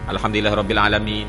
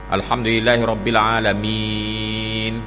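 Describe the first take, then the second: First: The final vowel is held only briefly. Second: The final vowel is drawn out longest. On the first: "dua dua harakat" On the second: "Isba' ni maksudnya enam harakat, panjang sikit"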